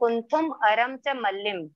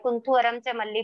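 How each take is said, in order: First: The names end with m sounds. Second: The names end in plain vowels. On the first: The speaker calls it right. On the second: The speaker calls it wrong.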